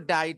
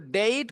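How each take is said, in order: First: The vowel sounds like 'eye'. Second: The vowel sounds like 'ay'.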